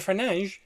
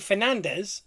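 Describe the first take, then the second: First: The name is said with Portuguese pronunciation. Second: The name is said with English pronunciation. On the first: The speaker calls it right. "they go, yeah" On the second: The speaker calls it wrong. "they're going to go, huh?"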